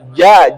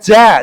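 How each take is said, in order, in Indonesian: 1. Bunyi j dibuat dengan tengah lidah. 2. Bunyi j dibuat dengan ujung lidah. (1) "tapi di tengah lidah" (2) "Bukan ja, jangan di ujung lidah"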